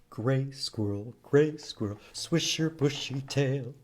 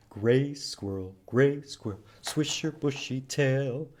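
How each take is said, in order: Both takes have the same delivery.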